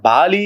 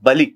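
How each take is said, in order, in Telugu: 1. మొదటి అచ్చు దీర్ఘంగా ఉంటుంది. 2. మొదటి అచ్చు హ్రస్వంగా ఉంటుంది. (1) "ఆయన బాలి అని ఒక చక్రవర్తి కాదు"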